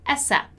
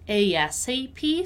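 First: "asap" read as one word, ay-sap; acronym as a word. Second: "A S A P" read as four separate letter names; spelled-out acronym. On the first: Teacher gives the other accepted reading, acronym as a word. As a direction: say "asap" as a word, without spelling out letters. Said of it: "may be read A S A P". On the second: Teacher shows how the acronym may be read, letter by letter. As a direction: pronounce every letter of "A S A P". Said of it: "so pronouncing every letter". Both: Shown as a demonstration.

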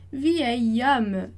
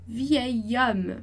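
Both takes have the same delivery.

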